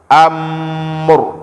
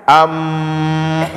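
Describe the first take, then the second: First: The final r is neither abrupt nor drawn out. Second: The final r is drawn out and flowing. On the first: The speaker calls it right. "tapi dia di tengah-tengah" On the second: The speaker calls it wrong. "jangan terlalu di apa namanya dialirkan, am, salah juga"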